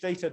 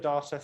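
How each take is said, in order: First: The word is said the American way. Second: The word is said the British way.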